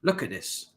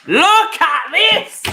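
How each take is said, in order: First: Said in the usual way. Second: High, loud, slow drawn-out yell; exasperated shout. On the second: Real, not acted. Fan yelling at his team on screen, loud and stretched out. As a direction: bellow it in disbelief at the screen.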